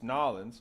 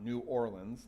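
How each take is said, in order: First: The name is squeezed into two short syllables. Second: The name is said fully with all syllables. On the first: This is how locals say it. The speaker calls it right. "is the correct way that the town, the city's name is pronounced" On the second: This is how outsiders say it. The speaker calls it wrong.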